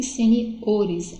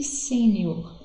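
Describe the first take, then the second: First: "seniores" said slowly, strongest on O, se-ni-O-res; stress shifted to O. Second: "sênior" with the first syllable SÊ strongest; stress on SÊ. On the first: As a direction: stretch the O in "seniores". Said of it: "vai ser no o". ("seniores" com a sílaba tônica no O) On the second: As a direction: say "sênior" slowly, leaning on SÊ. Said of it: "minha sílaba tônica é no C". ("sênior" com a sílaba tônica no SÊ) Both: Shown as a demonstration.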